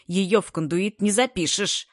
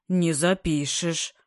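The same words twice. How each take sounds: First: Fierce scolding. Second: Slow, dejected agreement; hopeless gloom. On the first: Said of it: "Свирепо напустился". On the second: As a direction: echo it in despair. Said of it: "безнадёжным унынием согласился". (безнадёжное уныние) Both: A narrator's reading.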